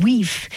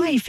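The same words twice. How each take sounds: First: "wife" said as "weef"; Old English pronunciation. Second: Said in the usual way. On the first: Shown as a demonstration. Host explaining fishwife's origin, "wife" pronounced Old English "weef".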